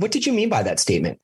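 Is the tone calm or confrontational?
calm. The question is asked in a calm, curious tone. A genuine request for clarification. The speaker calls it right. "You ask a question"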